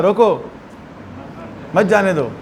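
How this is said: The pause comes right after रोको.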